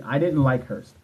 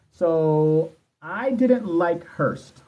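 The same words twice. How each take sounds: First: Said in the usual way. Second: Slow drawn-out statement. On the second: Shown as a demonstration. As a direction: stretch each word out slowly.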